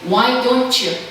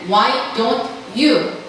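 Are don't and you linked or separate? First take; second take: linked; separate. First: Don't and you are blended into one sound. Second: Don't and you are said as separate words. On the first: "대부분 들으실 때는 Why don't you? 이렇게 발음이 들린다" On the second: "내가 말할 때는 Why don't you? 하셔도 상관없지만"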